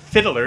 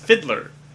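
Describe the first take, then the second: First: The word is said with an extra syllable. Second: The word is said with two syllables. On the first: The speaker calls it wrong. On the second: The speaker calls it right.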